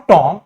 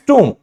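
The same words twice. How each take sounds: First: "Tom" with an open O for tomb; tomb misread as "Tom"; wrong O vowel. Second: "tomb" said "toom", no B; OO vowel, silent B. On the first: Teacher shows what it is not, open O in "Tom". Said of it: "It's not Tom". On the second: Teacher corrects the vowel, "tomb" as "toom". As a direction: round the O of "tomb" into a light oo. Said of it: "हल्का सा ऊ का pronunciation". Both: Shown as a demonstration.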